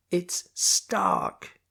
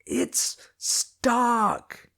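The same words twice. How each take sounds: First: Unvoiced, half-swallowed name. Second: High, loud, clear name; shouted. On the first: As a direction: say it without carrying. First try, guard can't hear. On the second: Acted. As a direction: yell the name up so he hears. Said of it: "I shouted".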